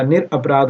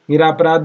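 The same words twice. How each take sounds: First: निरपराध said with short ra before p; correct short vowel. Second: निरापराध said with long raa before p; faulty ni-raa-pa-raadh; wrong long vowel. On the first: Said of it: "निरपराध होता है". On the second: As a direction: stretch रा in निरापराध. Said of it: "निरापराध नहीं होता". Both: Shown as a demonstration.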